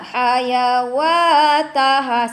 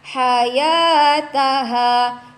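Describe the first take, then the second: First: A w sound is pronounced after the second syllable. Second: No w sound is pronounced after the second syllable. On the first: The speaker calls it wrong. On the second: The speaker calls it right.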